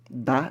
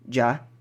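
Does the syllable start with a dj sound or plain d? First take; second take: plain d; dj. First: The syllable starts with a plain d sound. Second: The syllable starts with a dj sound. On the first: "O D é sempre bem mudo" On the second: "se você quiser o som mais aportuguesado"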